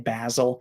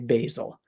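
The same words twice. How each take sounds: First: It is said with a British pronunciation. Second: It is said with an American pronunciation. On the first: "British people say basil" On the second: "in the U S we say basil"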